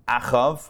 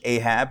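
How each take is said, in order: First: The name ends with a v sound. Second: The name ends with a b sound. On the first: This is the original Hebrew form of the name. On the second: This is the English form of the name.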